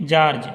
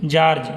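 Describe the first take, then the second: The two takes are said the same way.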